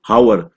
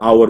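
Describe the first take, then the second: First: The word begins with an h sound. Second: The word begins with a vowel sound. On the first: The speaker calls it wrong. "अब हावर तो नहीं बोलोगे ना" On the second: The speaker calls it right. "आवर बोलोगे"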